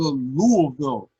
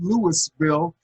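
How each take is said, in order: First: It is said the way locals say it. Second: It is said the way outsiders say it. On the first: The speaker knows the place. The speaker calls it right. "I said it right. I said it like I've been there" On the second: The speaker does not belong there. The speaker calls it wrong. "anybody that's calling it Louisville, you better get them a ticket out of town"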